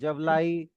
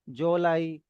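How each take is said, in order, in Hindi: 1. पहले व्यंजन के बाद v ध्वनि आती है। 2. पहले व्यंजन के बाद o स्वर आता है।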